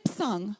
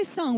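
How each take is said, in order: First: "psung" with the initial p pronounced; silent letter sounded. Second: Said in the usual way. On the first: Shown as a demonstration. Lecturer shows class what to avoid, "psung" with a sounded p. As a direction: put an audible p before the s in "psung". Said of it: "we don't say psung". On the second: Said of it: "so we say sung".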